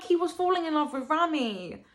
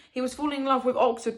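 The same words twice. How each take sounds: First: Higher plea, landing long on "Rami"; stress on Rami. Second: "Oxford" set up as the first alternative; stress on Oxford. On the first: Reader insisting on her own theory, stress on "Rami". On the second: Reader weighing the book's wording, stress on "Oxford". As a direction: lean on "Oxford", leaving the thought open. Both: Shown as a demonstration. Contrasts two readings of the line.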